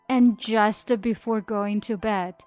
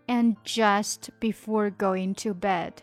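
No difference in how they are said.

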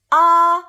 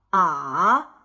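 First: The pitch stays high and level. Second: The pitch dips low, then rises. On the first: "5 到5 的阴平" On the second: "2 到1 到4 的赏声"

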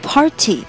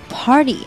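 First: The t is hard, with a strong puff of air. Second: The t is soft and sounds like a d. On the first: The speaker calls it wrong. "不要发成party 这样讲漏气不好听" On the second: The speaker calls it right. "我们的t 我们要发类似于d 的音"

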